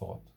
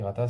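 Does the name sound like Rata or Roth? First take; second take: Roth; Rata. First: The name is said in one syllable, Roth. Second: The name is said with two syllables, Rata. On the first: This is how the name is actually said. The speaker calls it right. "ça se prononce Roth" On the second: It is read the way it is written. The speaker calls it wrong. "S'écrit Rata"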